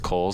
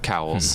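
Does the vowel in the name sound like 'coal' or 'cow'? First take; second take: coal; cow. First: The vowel sounds like the one in 'coal'. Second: The vowel sounds like the one in 'cow'. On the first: The speaker calls it right. "yes, it's Coles" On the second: The speaker calls it wrong. "not Cowles. You guys are all mispronouncing it"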